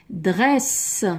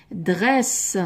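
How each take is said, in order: Both takes have the same delivery.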